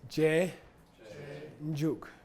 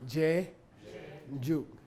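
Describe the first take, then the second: Both takes have the same delivery.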